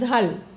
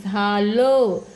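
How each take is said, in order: First: The final sound is short and clipped. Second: The final sound is drawn out and lengthened. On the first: The speaker calls it wrong. "जर अनुस्वार दिला नसतं तर काय झालं असं" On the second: The speaker calls it right. "लचा उच्चार थोडा लांबवायचा आहे, दीर्घ करायचा आहे"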